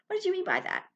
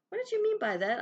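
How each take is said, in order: First: It is asked in a nasty tone. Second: It is asked in a curious tone.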